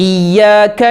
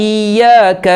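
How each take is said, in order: No difference in how they are said.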